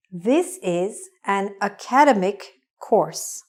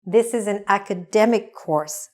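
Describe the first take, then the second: First: Slow, with "academic" wrongly stressed a-CAD-emic; mispronounced ACADEMIC. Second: "academic" stressed on the third syllable, aca-DEM-ic. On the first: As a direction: say "academic" as uh-KAD-uh-mik, slowly. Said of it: "what was wrong was my pronunciation". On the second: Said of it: "The stress is on the middle". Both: Shown as a demonstration.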